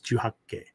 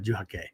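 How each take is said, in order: First: The K sound is held long. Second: The K sound is short. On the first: The speaker calls it right. "you're going to hold that K sound twice as long" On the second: The speaker calls it wrong. "So it's not Juhake"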